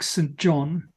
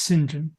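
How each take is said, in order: First: It is said as two words, 'Saint John'. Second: It is said as one short word, 'Sinjin'. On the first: The speaker calls it wrong. "might at first um, first uh, glance look like Saint John" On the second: The speaker calls it right. "it's actually pronounced St John"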